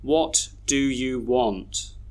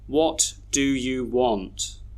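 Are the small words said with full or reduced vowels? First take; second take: full; full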